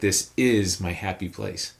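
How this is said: The stress falls on the word is. It affirms that the statement is true. "that second word kind of brings in that affirmation aspect"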